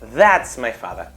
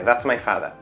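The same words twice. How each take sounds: First: The word 'that' is said strongly, with heavy stress. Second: The word 'that' is said weakly, without stress. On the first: It singles out which person is the father. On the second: It simply states who the person is.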